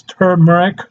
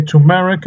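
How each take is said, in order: First: Turmeric said TER-mer-ic, R in first syllable; turmeric opening on a clear TER; corrected pronunciation. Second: Turmeric said TOO-mer-ic, no first R; turmeric opening on TOO; variant pronunciation. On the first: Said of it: "it's turmeric". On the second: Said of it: "some people say turmeric". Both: Shown as a demonstration.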